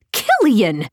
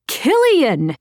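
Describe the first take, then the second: First: Calling his name after him. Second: Shouting his name. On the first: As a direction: call Killian's name, a little raised. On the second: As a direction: yell Killian's name after him. Calling louder as he jogs. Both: Acted.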